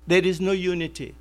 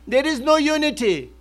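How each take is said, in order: First: Said in the usual way. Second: \"no\" lifted higher and leaned on in \"there is no unity\"; stress on no. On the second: Acted. Preacher drives home his point to the congregation, stressing \"no\". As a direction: hit \"no\" in \"there is no unity\", pitch up.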